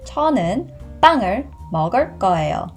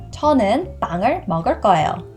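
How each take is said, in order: First: The sentence is spoken at a slow pace. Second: The sentence is spoken at a fast pace. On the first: "the second time I will say it much slower" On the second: "The first time I will say fast"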